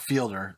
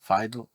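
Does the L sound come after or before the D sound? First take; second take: before; after. First: The L sound comes before the D sound. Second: The D sound comes before the L sound. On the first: The speaker calls it wrong. "It's not Fielder" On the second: The speaker calls it right. "It's File, Fiedler"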